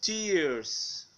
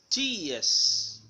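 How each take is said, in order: First: TEARS with the R sounded before S; American tears. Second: TEARS as "tee-ahs", no R; British tears. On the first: Teacher shows learners American tears, R pronounced. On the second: Teacher shows learners British tears, R silent. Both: Shown as a demonstration.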